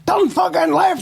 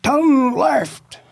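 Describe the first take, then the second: First: Much higher, exasperated barked order; cop's mock shout, pitched well up; escalated police shout. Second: Higher, barked order from a cop; mock police shout, pitched up; imitated police shout. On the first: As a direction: yell it again, losing patience with the prisoner. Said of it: "He went". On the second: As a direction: yell it like a cop directing a prisoner. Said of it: "And he's shouting".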